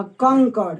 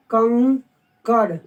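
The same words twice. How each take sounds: First: Said in the usual way. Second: कंकड़ very slowly, kan, pause, kar; कंकड़ drawn out in two separate parts; syllable by syllable. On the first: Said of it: "अगर हमको यहीं पे लिखना पड़ जाए". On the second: Shown as a demonstration. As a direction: break कंकड़ in two with a held nasal. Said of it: "तो आप इसको इंग्लिश में क्या लिखोगे?".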